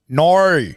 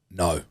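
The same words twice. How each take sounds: First: "No" stretched into a broad Australian "naur"; Aussie "No". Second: Said in the usual way. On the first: Shown as a demonstration. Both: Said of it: "this is the fundamental difference".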